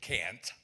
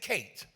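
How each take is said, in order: First: The word is said in a Minnesota accent. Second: The word is said in a down-home accent. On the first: The speaker calls it wrong. "Y'all did Minnesota thing. You said can't" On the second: The speaker calls it right. "I said can't"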